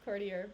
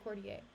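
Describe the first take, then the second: First: The word is said with a plain English sound. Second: The word is said with a French-sounding flavor. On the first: The speaker calls it wrong. "I just looked at the phonetics of it and it's courtier" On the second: The speaker calls it right. "It sounds better if it has like a weird, if it has a French thing going on"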